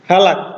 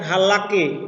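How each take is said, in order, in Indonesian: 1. Kata ini diakhiri dengan bunyi konsonan. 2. Kata ini diakhiri dengan bunyi vokal tambahan. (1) "Sewa terakhir bisu" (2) "bukan halaki"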